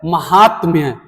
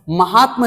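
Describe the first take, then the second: First: महात्म्य with a y glide after m; correct pronunciation. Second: महात्मा said "mahaatma" with short ending, no ya; wrong pronunciation. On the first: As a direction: finish महात्म्य clearly on "tmya". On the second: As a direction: end महात्मा on a bare short म. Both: Shown as a demonstration. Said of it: "महात्मा नहीं होता है".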